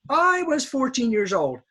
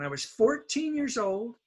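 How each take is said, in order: First: The word I is emphasized strongly. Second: The word I is quick and low. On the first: The speaker calls it wrong. "my Japanese students will often emphasize I" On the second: The speaker calls it right. "this word is little because it's it's fast and it's low"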